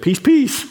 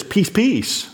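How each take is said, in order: First: Put-on high, sing-song call of peace, peace to settle the kids; parent hushing kids. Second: Said in the usual way. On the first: Parent calling peace, peace to rowdy kids, high sing-song. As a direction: coax the children to settle down. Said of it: "we've always said for forty-one years". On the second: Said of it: "it literally, it says".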